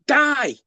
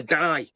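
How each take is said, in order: First: Retold hello, higher and a touch louder; cheery greeting. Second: Said in the usual way. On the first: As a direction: call her name like a long-lost friend. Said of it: "and he's like". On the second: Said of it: "He's literally calling her".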